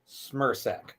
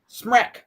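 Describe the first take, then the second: First: The name is said with two syllables. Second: The name is said with one syllable. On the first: The speaker calls it right. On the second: The speaker calls it wrong.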